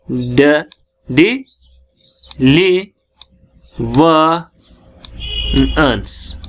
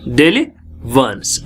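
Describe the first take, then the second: First: daily वंस stretched out with long gaps between syllables; drawn-out teaching demo of daily वंस; very slow syllables. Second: Said in the usual way. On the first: Shown as a demonstration. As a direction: say daily वंस extremely slowly, one syllable at a time. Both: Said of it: "देखो".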